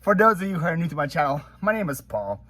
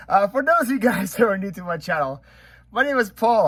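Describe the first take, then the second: First: Said in the usual way. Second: Upbeat intro. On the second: Shown as a demonstration. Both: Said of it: "That took way more takes".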